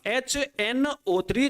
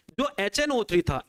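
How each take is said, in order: First: HNO three drawn out slowly, higher; slow, spelled-out repeat. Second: Said in the usual way. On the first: Shown as a demonstration. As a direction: stretch each letter of HNO three. Teacher repeats the acid slowly, emphatically.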